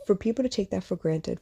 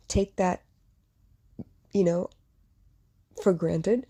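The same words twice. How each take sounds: First: Said in the usual way. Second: Halting, with long pauses as the throat closes up; choked hesitation. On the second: Real, not acted. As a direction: struggle to get the words out. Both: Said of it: "I hesitate".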